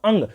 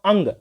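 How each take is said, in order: First: अंग said again, the nasal ng held; nasal pronunciation demo. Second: अंग said with the ng sound through the nose; nasal pronunciation demo. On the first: Teacher repeats अंग to show nasal sound. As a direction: let अंग resonate in the nose. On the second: Teacher shows students अंग pronounced through the nose. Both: Shown as a demonstration. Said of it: "नाक से उच्चारण हो रहा है".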